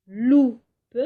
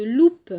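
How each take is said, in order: First: Loupe split as lou... pe, lou louder; syllable by syllable. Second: Said in the usual way. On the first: Shown as a demonstration. Teacher showing the shared syllable, Loupe broken in two. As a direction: hit lou hard, pause, then a separate pe. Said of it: "commencent par la syllabe loup". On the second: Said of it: "Moi, je vous propose".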